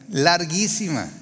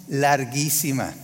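First: Said in the usual way. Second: Larguísima said slowly and stretched; drawn-out larguísima. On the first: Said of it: "repeats the word". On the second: Shown as a demonstration. Preacher tells the congregation how endless the cold night felt, stretching larguísima. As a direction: let larguísima drag on slowly, like the long night. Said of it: "stretches the word for emphasis".

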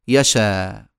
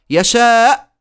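First: يشاء slow, ending on open aa; final hamza dropped. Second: First يشاء ends in a glottal stop; final hamza sounded. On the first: Teacher showing deletion, يشاء without final hamza. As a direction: leave the end of يشاء open, no catch. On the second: Teacher showing the original, final hamza sounded. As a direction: shut the throat at the end of يشاء. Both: Shown as a demonstration. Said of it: "تصير".

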